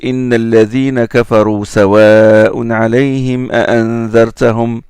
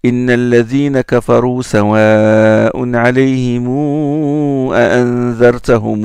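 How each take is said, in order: First: The final 'm' of 'alayhim' has no long vowel. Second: The final 'm' of 'alayhim' is followed by a long vowel.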